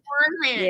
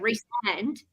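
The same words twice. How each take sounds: First: The first syllable sounds like "rice". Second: The first syllable sounds like "Reese". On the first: The speaker calls it wrong. "they say rice" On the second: The speaker calls it right. "the short form is Reese, so it's"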